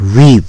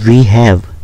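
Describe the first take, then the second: First: It is squeezed into one short syllable. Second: Two separate full words are said.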